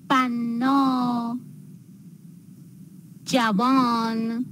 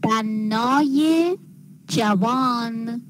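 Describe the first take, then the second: First: "بنا، جوان" as two separate drawn-out words, bannâ, javân; slow, unlinked citation of بنا and جوان; no linking ezafe. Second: "بنای جوان" slowly, with -ye rising after bannâ; linking ezafe ye. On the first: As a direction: end بنا on a long open â, pause, then جوان. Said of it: "در کلمات مختوم به مصوت". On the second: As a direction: add a clear "ye" to بنای before جوان. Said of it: "می نویسیم". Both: Shown as a demonstration.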